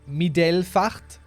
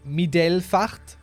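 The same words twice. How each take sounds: First: It is said with a German-sounding pronunciation. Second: It is said with a German-sounding pronunciation.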